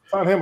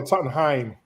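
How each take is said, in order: First: "Tottenham" ending like the meat, ham. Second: "Tottenheim", last syllable rhymes with time; Tottenham with HEIM. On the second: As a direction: say "Tottenheim" ending in "hime". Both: Shown as a demonstration. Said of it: "Is it Ham or Hein".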